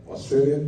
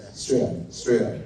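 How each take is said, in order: First: Said in the usual way. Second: Australia clipped to an Aussie Straya, a bit lower; mock Australian accent on Australia. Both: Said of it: "that's how they say it".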